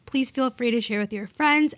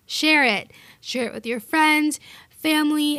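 First: Said in the usual way. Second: Higher, louder firm order; playful bossy demand, punching share; insistent command. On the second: Shown as a demonstration. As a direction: tell them to share it, no "please". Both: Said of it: "not please feel free to share".

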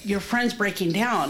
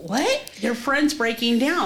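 First: Said in the usual way. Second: High "what?", then a rising echo; retold disbelieving question. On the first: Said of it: "came and ran and got me and said". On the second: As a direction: imitate taking in startling news, pitch rising. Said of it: "And I go".

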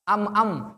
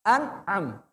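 First: "Am-am" with mim in place of nun; wrong pronunciation. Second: "an-am" with clear nun then mim; correct pronunciation. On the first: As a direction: demo the error "Am-am". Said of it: "bukan am-am". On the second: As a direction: model the right "an-am". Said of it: "Tapi yang benar an". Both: Shown as a demonstration.

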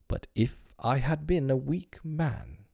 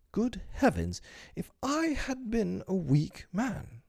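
First: Mild musing. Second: Much higher, slow mock-pompous exclamation; self-admiring exclaim. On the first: Acted. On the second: Mr Darling grandly marvelling at his own virtue. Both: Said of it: "he said".

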